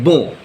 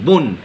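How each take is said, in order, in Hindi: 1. स्वर नासिक है, इसमें n की ध्वनि नहीं है। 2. स्वर मौखिक है, और उसके बाद एक स्पष्ट n आता है। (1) "यहां पर हम ये नहीं बोल रहे हैं बो" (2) "यहां पर न का साउंड आ रहा है"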